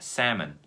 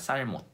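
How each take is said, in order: First: The L sound is silent. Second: The L sound is clearly pronounced. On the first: The speaker calls it right. "정확한 발음은 salmon입니다. L은 없다고 생각하시면 됩니다" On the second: The speaker calls it wrong. "L이 거기 있기 때문에 발음을 한다는 거죠. 살몬이 된다는 거죠"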